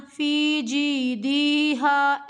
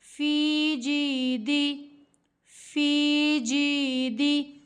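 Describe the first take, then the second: First: "दी" wrongly stretched long, very slow; wrong stretched dee. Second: "दी" kept short in a slow recitation; correct short dee. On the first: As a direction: drag "दी" out too long, as the mistake. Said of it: "ऐसे नहीं पढ़ना।". ("दी" को गलत तरीके से लंबा खींचना) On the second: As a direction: recite slowly but keep "दी" clipped short. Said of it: "दी नहीं पढ़ना।". ("दी" को छोटा रखकर धीमी तिलावत) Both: Shown as a demonstration.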